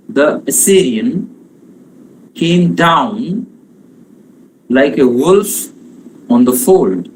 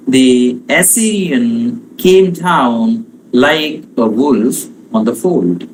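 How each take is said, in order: First: "The Assyrian came down like a wolf on the fold" broken into beats, "down", "wolf" and "fold" hit hardest; anapestic line. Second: Slow, galloping anapestic beat; anapestic line. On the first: Teacher rereads the line foot by foot for stress. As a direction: pause after each foot, punch "down", "wolf", "fold". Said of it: "wolf is stressed, fold is stressed". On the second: Teacher demonstrating anapestic tetrameter, slow and rhythmic. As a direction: lean on "down" and "fold" like a rolling gallop. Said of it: "the is unstressed". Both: Shown as a demonstration.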